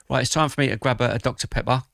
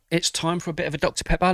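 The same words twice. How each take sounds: First: Said in the usual way. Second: Higher, playful lilt with a rising end; playful sing-song. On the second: Real, not acted. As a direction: sing it out like a treat. Repeats announcement, playful.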